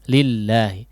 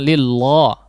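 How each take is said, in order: First: The L sound is thin and light. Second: The L sound is thick and heavy. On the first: The speaker calls it right. "lillah tidak ditebalkan tapi lillahi" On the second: The speaker calls it wrong. "Jangan lillah"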